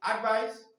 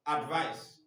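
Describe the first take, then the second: First: "Advice" pitched high with a rising end; contrasting stress pattern. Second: "advice" at normal pitch with a falling end; contrasting stress pattern. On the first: Teacher contrasting stress patterns, "Advice" high and rising. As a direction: lift "Advice" high, as the first form. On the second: Teacher contrasting stress patterns, "advice" falling to a close. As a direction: let "advice" drop, as the second form. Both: Shown as a demonstration. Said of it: "vocalization of stress pattern".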